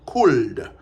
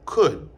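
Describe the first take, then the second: First: The L sound is pronounced in the word. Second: The L sound is silent in the word. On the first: The speaker calls it wrong. "Nous pas dit could" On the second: The speaker calls it right. "elle n'est pas prononcée dans could"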